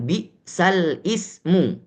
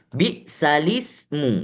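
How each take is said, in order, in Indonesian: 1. Hentian glotal memisahkan lam dari 'ismu'. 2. Lam langsung menyambung ke 'ismu' tanpa jeda. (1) "bukan bi'sal ismu. Tidak" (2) "Bi'salismu, bukan bi'sal ismu"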